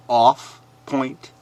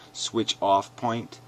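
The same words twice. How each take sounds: First: "Off point" repeated louder and scornfully; scornful emphasis. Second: Said in the usual way. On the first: Shown as a demonstration. Throwing the commenter's phrase back, louder and scornful.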